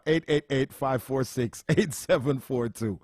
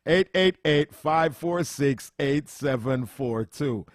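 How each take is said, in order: First: Said in the usual way. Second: Each digit drawn out slowly; slow repeated number. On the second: Shown as a demonstration. Host repeating the phone number slowly for callers.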